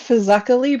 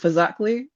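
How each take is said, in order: First: The name is said in its full, careful form. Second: The name is said in a shortened, casual form. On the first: This is the official pronunciation. The speaker calls it right. "It's technically" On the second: This is how locals actually say it. The speaker calls it wrong. "but everyone calls it"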